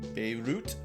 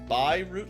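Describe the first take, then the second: First: The final T is strong and clearly released. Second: The final T is soft or nearly silent. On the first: "That'd be a strong T and a strong Y" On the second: "you don't really pronounce the T very, very, like it's a soft T or a, maybe even a silent T"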